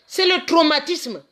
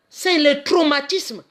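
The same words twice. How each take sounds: The two takes are said the same way.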